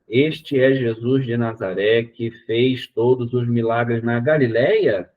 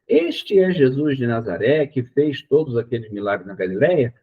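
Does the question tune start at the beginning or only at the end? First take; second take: end; beginning. First: It sounds like a statement until the final words. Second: It sounds like a question from the first word. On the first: The reader realized late that it was a question. The speaker calls it wrong. "no último pedacinho, quando eu percebo que tem um ponto de interrogação, eu mudo o tom da minha voz" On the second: It is clear from the start that it is a question. The speaker calls it right. "A entonação de pergunta tinha que ter começado junto com a frase"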